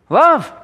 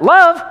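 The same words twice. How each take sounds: First: LOVE, lifted high and firm; emphatic love. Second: Love? jumping high and loud in disbelief; incredulous question. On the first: Shown as a demonstration. Preacher announcing the command, Love. stated high and firm. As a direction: land the word Love. as the headline. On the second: Pretend. Imagined listener doubting the command, incredulous Love?. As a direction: ask it like you can't believe it. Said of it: "You say".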